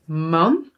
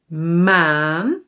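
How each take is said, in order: First: "Man" with a short Dutch a; "Man" said with a quick "ah"; short vowel. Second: "maan" with a long aa; "maan" held long, rising at the end; long vowel. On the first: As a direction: keep the a in "Man" brief. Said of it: "one with a short sound". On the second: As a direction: draw out the aa in "maan". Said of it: "one with a longer". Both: Shown as a demonstration.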